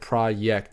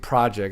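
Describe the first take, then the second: First: The word is said with European-style pronunciation. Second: The word is said with English pronunciation. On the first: The speaker calls it right. "It's like project or something like that" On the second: The speaker calls it wrong. "It's not actually project"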